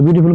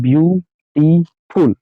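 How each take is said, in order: First: Said in the usual way. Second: "beautiful" very slowly as three separate beats, view, टी, फुल; split into syllables. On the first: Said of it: "जैसे beautiful को बोलना है". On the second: Shown as a demonstration. Teacher showing how we say it, "beautiful" slowly split in three syllables. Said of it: "beautiful को हम लोग कैसे बोलते हैं?".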